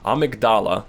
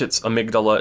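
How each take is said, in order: First: It is pronounced the way the game says it. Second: It is pronounced the usual English way. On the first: "That's the in-game pronunciation" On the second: "in English"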